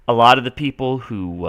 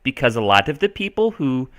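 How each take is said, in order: First: Said in the usual way. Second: Lilting put-on Minnesotan accent; Minnesota accent. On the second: Shown as a demonstration. Teacher carried away explaining settlers, put-on Minnesota accent. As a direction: keep up the Minnesotan imitation, Nordic-tinged. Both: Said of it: "I gotta stop that".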